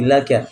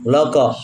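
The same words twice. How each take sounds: First: The 'l' is pronounced light and thin. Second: The 'l' is pronounced heavy and thick. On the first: The speaker calls it right. "tapi laka" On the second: The speaker calls it wrong. "jangan dibaca"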